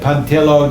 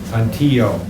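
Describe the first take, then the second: First: The double L sounds like an L. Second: The double L sounds like a Y. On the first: "If you said Pontillo, that's fine" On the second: "it sounds like Y"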